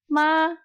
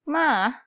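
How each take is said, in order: First: The pitch stays high and level. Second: The pitch dips low and then rises. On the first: "Nada satu" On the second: "nada ketiga"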